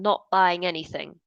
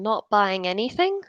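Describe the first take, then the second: First: The voice falls at the end. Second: The voice rises at the end. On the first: The speaker has finished the statement. The speaker calls it right. "I should use a falling intonation. So it should be" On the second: The speaker sounds unfinished. The speaker calls it wrong. "I exaggerated it a little bit that time, but can you see at the end we've got a rising intonation?"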